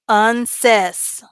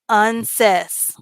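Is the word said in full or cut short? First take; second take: cut short; cut short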